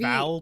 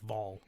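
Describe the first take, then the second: First: The vowel sounds like the one in 'pal'. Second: The vowel sounds like the one in 'doll'. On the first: This is how the spelling suggests it is said. "so you feel like it should be Val" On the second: This is how the show actually says it. "they pronounce it like it's V O L, like Vol"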